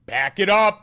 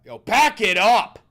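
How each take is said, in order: First: High loud shout of the words. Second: Slow, high shouted yell; loud shout. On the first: Shouting a phrase at chat, full yell. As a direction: yell it out sharply. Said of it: "When did I say pack it up?". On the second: Repeating the misheard line as a big yell. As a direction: belt it out slowly. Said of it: "I don't even know how I said it". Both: Retold or imitated.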